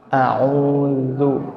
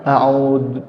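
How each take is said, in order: First: The z sound is soft. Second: The z sound is harsh. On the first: The speaker calls it right. "zanya harus lembut" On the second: The speaker calls it wrong. "Jangan a'udzu"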